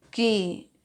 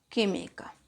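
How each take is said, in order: First: Syllable by syllable. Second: Said in the usual way. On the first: Shown as a demonstration. Teacher separating "química" in the exercise example, syllable by syllable. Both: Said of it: "Separamos química".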